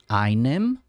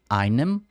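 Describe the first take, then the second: The two takes are said the same way.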